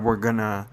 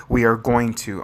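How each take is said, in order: First: Said in the usual way. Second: "going to" said out in full; self-correcting, "we are going to" with each word separate; careful full form. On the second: Real, not acted. Crafter correcting their own gonna, careful "going to". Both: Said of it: "I need to stop saying gonna".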